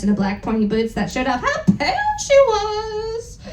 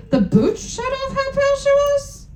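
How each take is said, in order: First: Said in the usual way. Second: Higher, baffled reread of "The boots showed off how pale she was?"; mock the line with disbelief; incredulous question. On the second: Real, not acted.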